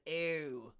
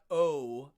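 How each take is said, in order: First: "O" fronted, gliding like "eh-oo"; Pittsburgh-accented "O", drawn out and fronted. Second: Plain round "O"; "O" in standard American, not Pittsburgh style. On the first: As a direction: say "O" the Pittsburgh way, starting near "eh". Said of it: "Pittsburgh also has the O sound". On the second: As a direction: say "O" as the ordinary long vowel. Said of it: "Not O, but O". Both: Shown as a demonstration.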